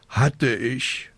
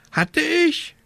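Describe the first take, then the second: First: Drawn-out sighed admission; resigned sigh. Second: Very high squawked question; croaking raven. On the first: Witch owning up about her lost broom, sighing. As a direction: sigh it out, a little higher. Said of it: "seufzte die kleine Hexe". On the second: Raven startled by the witch's answer, croaked question. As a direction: croak it back in disbelief. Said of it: "krächzte Abraxas". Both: A narrator's reading.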